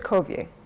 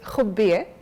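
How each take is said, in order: First: The surname is said with an English accent. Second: The surname is said with an Arabic accent. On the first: "in English it's" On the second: "in Arabic it's"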